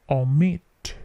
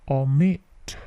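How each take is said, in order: Both takes have the same delivery.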